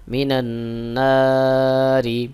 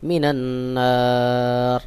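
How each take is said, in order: First: Slow মিনান নারি ending in a clear short "ri"; voweled final r. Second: Slow মিনান্নার stopping on a bare r, no "i"; vowelless final r. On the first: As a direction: hum the nn in মিনান, stretch নারি and sound its final i. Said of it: "এজন্য রতে জের রয়েছে". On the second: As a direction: hum the nn in মিনান্নার, stretch aa, end on silent-vowel r. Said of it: "সহি উচ্চারণ হবে". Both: Shown as a demonstration.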